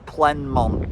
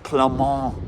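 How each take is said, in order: First: The name is said with an English-style pronunciation. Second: The name is said with a French-style pronunciation. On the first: The speaker calls it wrong. "I was pronouncing it" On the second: The speaker calls it right. "he was saying it's Plemont"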